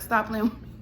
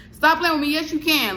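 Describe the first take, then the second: First: Said in the usual way. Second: Higher, louder mock comeback; insistent retort. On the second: Talking back to the landlady, loud and high insistence. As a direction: fire it back sharply, pitch up.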